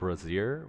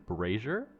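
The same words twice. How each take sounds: First: The first syllable sounds like 'bra'. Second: The first syllable does not sound like 'bra'. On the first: "I was saying brazier, which is like the bra" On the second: "I think they said it's brazier"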